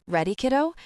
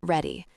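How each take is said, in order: First: Bright question, rising on kiddo; questioning rise. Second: Low, falling, final Ready; settled answer. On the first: Father figure checking on the bride, rising question. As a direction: lift the end, checking she is ready. Eli asks bride before aisle. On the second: Bride answering Eli before the aisle, low falling. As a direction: close it down, calm resolve. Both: A narrator's reading.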